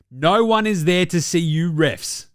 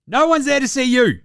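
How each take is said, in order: First: Said in the usual way. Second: Higher, louder insistence on No one's there to see you; host scolding refs a second time, louder; louder repeat. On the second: Acted. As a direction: drive the point home harder.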